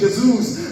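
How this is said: It is said quickly with a European Portuguese accent. "os portugueses dizem rapidinho"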